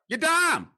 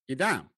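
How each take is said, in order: First: It is said with stronger, bigger enthusiasm. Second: It is said with milder enthusiasm.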